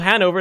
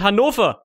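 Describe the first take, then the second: First: The name is said with an English pronunciation. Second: The name is said with a German pronunciation. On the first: The speaker calls it wrong. "It's not called Hanover" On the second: The speaker calls it right. "it's called Hannover"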